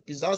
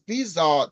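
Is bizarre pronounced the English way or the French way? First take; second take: English; French. First: The word is said with an English pronunciation. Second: The word is said with a French pronunciation. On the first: "the English people uh, uh, describe that as a bizarre situation" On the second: "normally the French pronounce it differently. They say a situation is bizarre"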